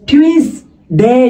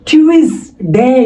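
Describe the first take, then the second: The two takes are said the same way.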